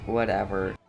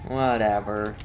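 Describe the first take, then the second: No difference in how they are said.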